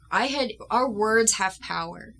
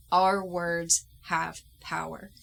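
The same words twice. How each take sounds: First: Said in the usual way. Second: Our words have power said slowly, each word weighed; slow solemn emphasis. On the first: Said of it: "repeated declaration". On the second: Real, not acted. Stating her belief to viewers, slow and solemn. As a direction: lay it down like a creed. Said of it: "repeated declaration, slow".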